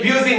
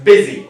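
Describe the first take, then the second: First: The first vowel sounds like 'yoo'. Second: The first vowel sounds like short 'ih'. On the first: The speaker calls it wrong. "ये ब्यूजी नहीं है" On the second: The speaker calls it right. "It's busy"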